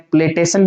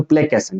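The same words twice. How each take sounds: First: "प्लेटेशन" with a T before the ending; wrong pronunciation. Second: "प्लेकेशन" with a K before the ending; correct pronunciation. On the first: Teacher quoting students' mistake, T in place of K. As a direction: say "प्लेटेशन" as play-TAY-san. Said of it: "लेकिन ये wrong है". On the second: Teacher correcting the misreading, K in place of T. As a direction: say "प्लेकेशन" as play-KAY-san. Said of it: "सन sound आएगा". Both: Shown as a demonstration.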